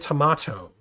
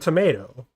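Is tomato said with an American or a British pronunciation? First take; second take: British; American. First: It is said with a British pronunciation. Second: It is said with an American pronunciation. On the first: The speaker calls it wrong. "Why would it be a tomato?" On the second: The speaker calls it right. "I'm not British"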